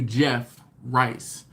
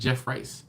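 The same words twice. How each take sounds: First: The name is said as two separate words. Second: The name runs together as one word. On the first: The speaker calls it right. "as opposed to" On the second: The speaker calls it wrong. "like as one word"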